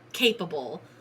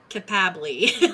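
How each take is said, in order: First: The final e is silent. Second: The final e is pronounced as a syllable.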